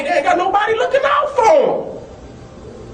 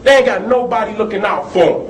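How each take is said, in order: First: Impassioned shout. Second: Said in the usual way. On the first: Real, not acted. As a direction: cry it out high, full of anger. Repeats line, first much higher.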